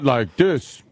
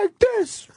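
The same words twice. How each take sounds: First: The voice is pitched low. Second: The voice is pitched high. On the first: This is not how a girl talks. "Not like this" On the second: This is how a girl talks. "she talk high like this"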